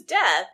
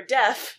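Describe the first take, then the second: First: "deaf" ending in a th sound; "deaf" mispronounced with final th; "deaf" as death. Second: Said in the usual way. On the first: Retold or imitated. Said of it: "or deaf, not deaf". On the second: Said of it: "not deaf".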